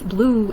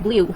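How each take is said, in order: First: The vowel is a plain 'oo' sound. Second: The vowel is a 'yoo' sound. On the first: The speaker calls it right. "It's actually the long double O sound as in ooh" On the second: The speaker calls it wrong. "If it were a long U, it would go like blue"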